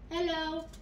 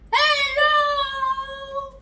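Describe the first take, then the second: First: It is said at normal volume. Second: It is shouted loudly.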